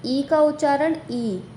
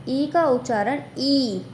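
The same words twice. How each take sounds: First: Final "ई" as a short, lax i; letter E as short i. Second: Final "ई" as a long, tense ee; letter E as long ee. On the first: Teacher shows the sound of E in regard, final "ई" as short i. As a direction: say the last "ई" like the first vowel in regard. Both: Shown as a demonstration.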